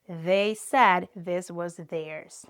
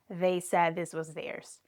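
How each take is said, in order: First: It is said slowly with exaggerated sounds. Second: It is said quickly at a natural pace. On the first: "I'm exaggerating here because we're practicing" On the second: "Now, try faster"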